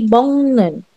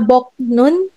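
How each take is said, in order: First: The first syllable ends in an ng sound. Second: The first syllable ends in a k sound. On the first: The speaker calls it right. "but it will be bong nun" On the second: The speaker calls it wrong. "Hindi siya bok nun"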